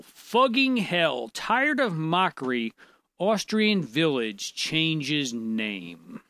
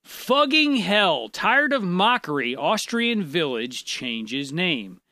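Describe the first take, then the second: First: Slow, drawn-out headline reading; deliberate, slow announcement of a headline. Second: Slow headline, punched at the start; slow, emphatic re-reading; emphatic headline repeat. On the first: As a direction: read the headline slowly, drawing out each phrase. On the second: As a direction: read it out slowly and firmly for a confused listener. Repeats headline after "Read it again. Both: Real, not acted.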